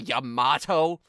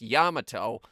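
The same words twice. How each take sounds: First: The name is said with an American pronunciation. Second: The name is said with its original pronunciation. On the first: The speaker calls it wrong. "which is not how it's pronounced" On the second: The speaker calls it right. "It's pronounced Yamato"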